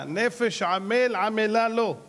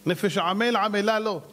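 First: "נפש עמל עמלה לו" very slowly, word by word; emphatic verse. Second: Said in the usual way. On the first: Real, not acted. ("נפש עמל עמלה לו" לאט, מילה במילה)

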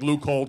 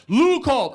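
First: Said in the usual way. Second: High, loud yell; imitated roommate yelling; yelling through door. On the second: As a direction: holler it through a closed door. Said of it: "through the door he's yelling".

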